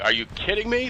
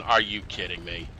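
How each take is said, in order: First: High, shocked disbelief; incredulous. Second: Resigned disbelief. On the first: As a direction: pitch leaps up, can't believe it. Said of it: "You know, and it's like". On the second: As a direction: let it drop, weary and resigned. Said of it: "shaking my head going". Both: Retold or imitated.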